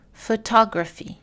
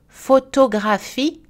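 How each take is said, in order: First: "photography" in English, stress on TOG; English "photography", one strong syllable; English word stress. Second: "Photographie" slow, every syllable equal, in French; slow, higher French "Photographie", full vowels; French even syllables. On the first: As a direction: say pho-TOG-raphy with reduced vowels. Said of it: "en anglais dans la colonne de droite". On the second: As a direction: spell out French "Photographie" evenly, rising at the end. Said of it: "Les exemples en français". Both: Shown as a demonstration.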